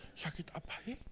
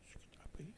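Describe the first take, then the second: First: Whispered worried question to himself. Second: Barely audible whisper, fading away; fainter whisper. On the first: Jono alone after lunch, whispering to himself in worry. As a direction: breathe it, half afraid to ask. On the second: Jono repeats his worry to himself, fading to a faint whisper. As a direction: let it die into a breath. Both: Acted.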